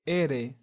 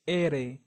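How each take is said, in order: First: The r is a single soft tap. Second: The r is a single soft tap.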